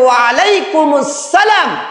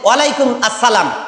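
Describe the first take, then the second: First: It is said as wa alaikumus, then salam. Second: It is said as walaikum, then assalam. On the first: The speaker calls it right. "সঠিক উচ্চারণ হচ্ছে" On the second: The speaker calls it wrong. "অনেকেই বলেন"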